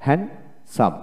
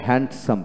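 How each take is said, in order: First: হ্যান্ডসাম as spaced "han... sam"; correct, silent d. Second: হ্যান্ডসাম with a stop, "hand-sam"; common form, d sounded. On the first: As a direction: say হ্যান্ডসাম in two parts without d. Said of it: "এখানে ডি উচ্চারণ হবে না". (ডি ছাড়া হ্যান-সাম উচ্চারণ) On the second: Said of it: "আমরা হ্যান্ডসাম বলি". (ডি সহ হ্যান্ড-সাম উচ্চারণ) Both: Shown as a demonstration.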